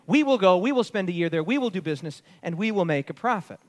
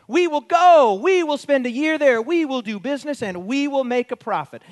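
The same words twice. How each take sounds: First: Just read the words back; quoting the plans again calmly; plain re-reading. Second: We will go, louder and higher, each WE pressed; declaring the plans with force; emphatic translation. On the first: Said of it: "How is this arrogant". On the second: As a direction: pound out every we will. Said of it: "It could be translated like this". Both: Shown as a demonstration.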